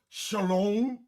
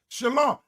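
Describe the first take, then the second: First: The second syllable has an 'oh' vowel. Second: The second syllable has an 'ah' vowel. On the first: The speaker calls it wrong. "not shalom or shalom" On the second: The speaker calls it right. "Ain't no O in that"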